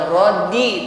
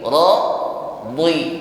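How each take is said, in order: First: The consonant sounds thin and light. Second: The consonant sounds heavy and thick. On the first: The speaker calls it wrong. "Kalau radi tipis" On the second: The speaker calls it right. "lebih ditebalkan"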